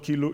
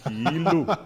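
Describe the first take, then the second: First: The first vowel is said short. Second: The first vowel is drawn out long. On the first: The speaker calls it wrong. "It's not Kilu" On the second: The speaker calls it right. "You have to sing it out"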